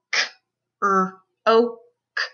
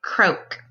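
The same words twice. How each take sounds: First: K... r... oh... k, with gaps between; sounded out phonemes. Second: Said in the usual way. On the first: Shown as a demonstration. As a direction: CROAK split into separate sounds. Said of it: "say the sounds in the word". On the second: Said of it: "put those sounds into a word".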